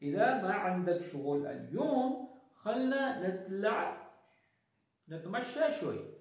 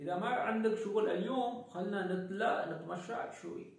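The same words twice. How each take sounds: First: The sentence is spoken at a slow pace. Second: The sentence is spoken at a fast pace.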